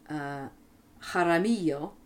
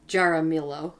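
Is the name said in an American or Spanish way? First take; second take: Spanish; American. First: The name has a Spanish-style pronunciation. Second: The name has an American-style pronunciation. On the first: "is how they pronounce it here" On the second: "perhaps it's Jaramillo in America"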